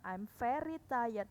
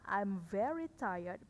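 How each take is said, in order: First: Very begins with an F sound, like ferry. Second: Very begins with a voiced V sound. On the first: The speaker calls it wrong. "bukan I'm very tired. Salah. Very itu kapal ya" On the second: The speaker calls it right. "Bacanya I'm very tired"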